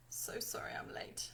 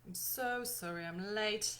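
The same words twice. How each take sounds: First: Breathy whispered apology; soft whispered sorry. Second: Said in the usual way. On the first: Acted. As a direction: whisper it, half joking. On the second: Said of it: "plain take of apology".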